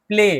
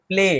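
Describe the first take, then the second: No difference in how they are said.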